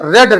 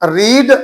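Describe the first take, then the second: First: The vowel is short, like 'red'. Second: The vowel is long, like 'reed'. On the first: It is the past or past participle form. "ये रीड नहीं है, ये रेड है" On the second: It is the present form. "Spelling रीड वी वन"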